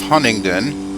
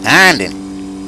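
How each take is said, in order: First: The name is said in full, all syllables clear. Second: The name is squeezed into a short clipped form. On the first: "this is the town of Huntingdon" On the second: "He actually pronounced it Handen"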